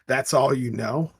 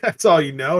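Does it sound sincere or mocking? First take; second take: sincere; mocking. First: It sounds innocent and sincere. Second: It sounds mocking and insulting.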